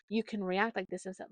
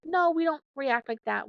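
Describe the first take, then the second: First: Gentle. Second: Put-on firm, raised no to a child; firm correction. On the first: Parent gently guiding her kid to a better reaction. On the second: Parent correcting her kid, firm and raised. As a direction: correct the child firmly, a bit higher. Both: Shown as a demonstration. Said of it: "gently kinda tell her".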